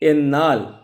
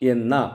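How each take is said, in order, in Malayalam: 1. ഈ വാക്ക് വ്യഞ്ജനത്തിൽ അവസാനിക്കുന്നു. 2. ഈ വാക്ക് സ്വരത്തിൽ അവസാനിക്കുന്നു.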